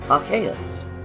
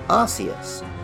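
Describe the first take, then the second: First: The first syllable sounds like 'ark'. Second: The first syllable sounds like 'arse'. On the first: This is the way the name is meant to be said. "clearly designed to resemble the pronunciation Arceus" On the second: This is the common older way of saying it. "most people pronounced it Arceus, which was especially funny in the UK, where arse is a slightly rude word"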